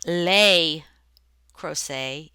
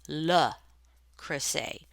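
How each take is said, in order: First: The name is said with a Southern American sound. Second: The name is said with a French sound. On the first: The speaker calls it wrong. "It is not" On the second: The speaker calls it right. "it is"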